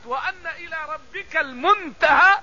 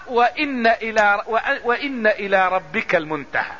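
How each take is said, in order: First: Slow recitation with "وأن" as wa-anna; higher, drawn-out verse, open "a" in "وأن"; fatha reading. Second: Slow recitation with "وإن" as wa-inna; measured verse opening on wa-inna for "وإن"; kasra reading. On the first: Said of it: "يعني على قراءة الفتح". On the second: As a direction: say "وإن" with an "i" on the hamza. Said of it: "كلها بكسر الهمز على الابتداء". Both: Shown as a demonstration.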